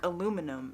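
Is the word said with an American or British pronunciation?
American. It is said with four syllables, American style. The speaker calls it right. "how we say things, like aluminum"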